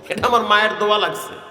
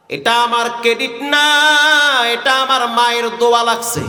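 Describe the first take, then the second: First: Said in the usual way. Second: Chanted, intone the sheikh's humble reply; chanted sermon quote. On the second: Acted. Chanted quote, then repeated plainly. (chanted, সুরে টেনে বলা)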